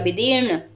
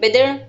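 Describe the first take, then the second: First: The second syllable has a long vowel. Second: The second syllable has a short vowel. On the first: The speaker calls it right. "यदि आप दा की मात्रा को थोड़ा खींचेंगे तभी ये विदीर्ण बनेगा" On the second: The speaker calls it wrong. "अब बच्चे क्या करते हैं, विदीर्ण ऐसा बोल देते हैं"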